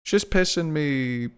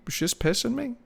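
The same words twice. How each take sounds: First: Said in the usual way. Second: Voice crack. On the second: Real, not acted. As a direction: voice cracking high. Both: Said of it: "Nice voice crack".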